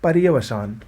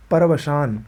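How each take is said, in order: First: पर्यवसान with rya; correct form. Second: परवसान without ya; wrong form. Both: Shown as a demonstration. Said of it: "ये शुद्ध है".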